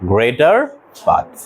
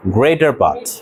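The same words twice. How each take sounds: First: Greater part stretched very slowly, rising on greater; slow drawn-out repeat. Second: Said in the usual way. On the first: Shown as a demonstration. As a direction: draw out greater part for the class. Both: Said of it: "অধিকাংশ ইংরেজি কি?".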